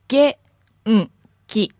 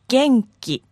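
First: It is said slowly, syllable by syllable. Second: It is said quickly as one word.

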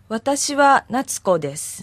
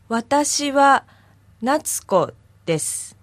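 First: It is said at normal speed. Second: It is said slowly and carefully.

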